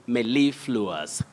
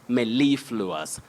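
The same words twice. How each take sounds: First: The main stress is on the second syllable. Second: The main stress is on the second syllable.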